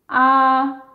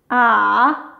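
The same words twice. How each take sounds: First: The pitch stays high and level throughout. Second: The pitch dips low, then rises again. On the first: "c'est un ton haut aigu. Donc, il est haut et plat" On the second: "qui part du niveau deux, qui descend jusqu'au un, et ensuite, il remonte jusqu'au niveau quatre"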